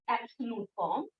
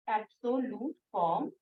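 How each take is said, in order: First: Said in the usual way. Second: absolute form softly, broken as एब्-सो-ल्यूट, form; careful, separated syllables in absolute form; dictation repeat. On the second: Shown as a demonstration. Teacher repeats the term for dictation.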